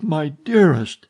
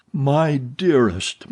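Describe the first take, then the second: First: Higher and louder aching cry; anguished moan. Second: Very slow, heartbroken moan. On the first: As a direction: let the grief swell out. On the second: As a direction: barely get the words out. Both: A narrator's reading. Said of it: "he moaned".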